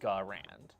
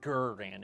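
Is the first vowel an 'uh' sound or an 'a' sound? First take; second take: a; uh. First: The first vowel is an open 'a' sound. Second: The first vowel is a short 'uh' sound. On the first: The speaker calls it wrong. "instead of Garand" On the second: The speaker calls it right. "it's supposed to be Gurrand"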